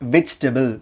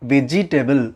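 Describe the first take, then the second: First: No vowel comes between 'veg' and 'table'. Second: An extra 'e' vowel follows 'veg'. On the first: The speaker calls it right. "There is no இ sound in between வெஜ் and டேபிள்" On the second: The speaker calls it wrong. "Not வெஜிடபிள்"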